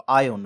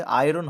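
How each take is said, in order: First: আয়ন said as eye-on with no r; correct pronunciation of iron. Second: আয়রন said with a full r, the common mistake; wrong pronunciation of iron. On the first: Teacher giving students the correct way, আয়ন without r. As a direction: drop the r, say আয়ন low and clear. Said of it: "আয়রন হয় না কিন্তু". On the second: Teacher showing students the common wrong way, আয়রন with r. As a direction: say আয়রন as i-ron with the r sounded. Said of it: "উচ্চারণটা অনেকে আয়রন করে দেয়". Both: Shown as a demonstration.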